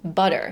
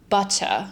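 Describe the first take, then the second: First: The middle consonant is a quick D-like flap. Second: The middle consonant is a clear T sound. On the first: "in American English, you just simply have to mentally replace it with a D" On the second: "In standard British English, you would say probably butter"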